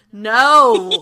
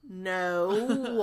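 First: Really loud, exasperated refusal; Brandon, out loud. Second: Weary, drawn-out sighing no; long sigh. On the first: Brandon turns around on the prankster, very loud. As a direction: blurt the no at full volume. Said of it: "out loud, really loud". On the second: Brandon answers the magical message, sighing. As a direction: let the word sag out in a long sigh. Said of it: "that long sigh again". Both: Acted.

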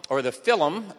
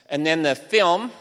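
First: "film" said in two syllables, like "fil-um"; Irish pronunciation. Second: Said in the usual way. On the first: Shown as a demonstration. Lecturer jokingly saying "film" the Irish way, as "fil-um". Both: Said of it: "as the Irish would say".

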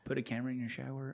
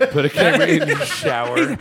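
First: Quiet mutter. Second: Laughing. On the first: Original line, muttered. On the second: Repeats line, laughing. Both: Real, not acted.

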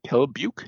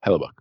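First: Hellebuyck with a questioning "-byook" ending; unsure pronunciation. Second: Hellebuyck ending in a short "-buck"; correct pronunciation. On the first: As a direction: try out Hellebuyck as "HELL-uh-byook", rising. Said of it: "How do you pronounce his name?". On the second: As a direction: say Hellebuyck as "HELL-uh-buck", falling. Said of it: "I said it right the first time". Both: Shown as a demonstration.

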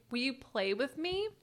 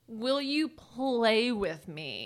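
First: Said in the usual way. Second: Each word drawn out slowly; slow and deliberate. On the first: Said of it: "And I was like". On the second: Retold or imitated. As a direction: spell it out for a deaf old man. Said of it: "One more time".

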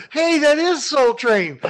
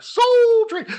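First: High, slow thrilled call; excited exclamation. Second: High, loud thrilled shout; excited exclamation. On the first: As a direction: belt it out in delight. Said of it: "you're gonna go". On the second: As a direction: cry the name out in delight. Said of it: "I was like". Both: Retold or imitated.

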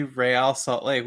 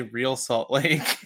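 First: Real said as ray-AL in Real Salt Lake; two syllables in Real, ray-AL, Spanish style; Spanish pronunciation. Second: Real said like English "reel" in Real Salt Lake; one syllable in Real, rhyming with feel; English pronunciation. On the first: Co-host showing how fans say the team, Spanish pronunciation of Real. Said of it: "we say". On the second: Co-host showing what fans don't say, English pronunciation of Real. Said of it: "we don't say". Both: Shown as a demonstration.

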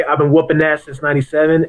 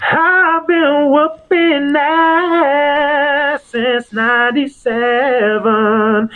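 First: Said in the usual way. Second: Very slow, high, drawn-out announcer call; the doctor's boast. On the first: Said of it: "there's a difference when you say". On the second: Shown as a demonstration. Doctor showing how his line sounds more believable, grandly drawn out. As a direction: stretch every word out high and long. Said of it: "then when the doctor says".

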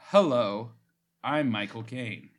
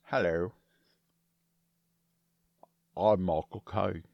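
First: Lightly voiced Cockney Michael Caine; slow, lightly put-on Cockney accent; Michael Caine impression. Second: Deep, slow Cockney Michael Caine; low, slow Cockney with a full mouth; Michael Caine impression. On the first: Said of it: "I have to do it in an accent". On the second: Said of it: "It was slower and deeper than the clip". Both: Shown as a demonstration.

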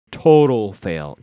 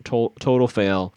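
First: Slow emphatic verdict. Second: Said in the usual way. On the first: Shown as a demonstration.

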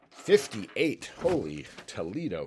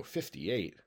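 First: Excited surprise. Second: Said in the usual way. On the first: Real, not acted. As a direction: call out the big roll in disbelief. Big dice roll, holy Toledo.

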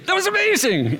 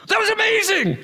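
First: High thrilled "amazing"; awed exclamation again. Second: High thrilled "amazing"; awed exclamation. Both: Retold or imitated. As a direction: gush with wonder. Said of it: "look at each other and go".

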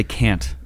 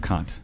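First: "can't" with the flat vowel of "can"; imitated mispronunciation of Kant. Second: "Kant" with a broad ah vowel; correct name pronunciation. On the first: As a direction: say the philosopher's name as "can't". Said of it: "Sister Prudence used to say "can't". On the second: Shown as a demonstration. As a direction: say "Kant" as "kahnt". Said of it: "instead of "Kant".

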